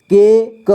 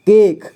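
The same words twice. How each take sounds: First: के क as two separate sounds; syllable by syllable. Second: Said in the usual way. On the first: Shown as a demonstration. Teacher showing learners के क, sounded out apart. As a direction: sound out के, then क. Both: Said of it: "इसे पढ़ेंगे".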